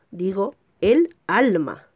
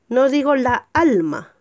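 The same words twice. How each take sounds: First: El alma, slow and clear; correct article. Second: La alma, the wrong form; wrong article. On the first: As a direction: say el alma, stressing el. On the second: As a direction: say la alma with la before alma. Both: Shown as a demonstration.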